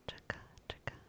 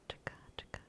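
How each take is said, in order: Both takes have the same delivery.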